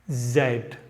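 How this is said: The letter is said the British way, zed.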